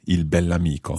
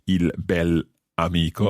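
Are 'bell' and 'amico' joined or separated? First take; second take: joined; separated. First: The adjective and noun run together smoothly. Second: The adjective and noun are said separately. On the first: The speaker calls it right. "it all runs together" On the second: The speaker calls it wrong. "we don't say il bell'amico"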